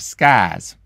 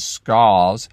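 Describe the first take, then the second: First: The vowel is an open ah sound. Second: The vowel is a rounded aw sound. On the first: "almost Texan ah" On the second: "I used to pronounce it as"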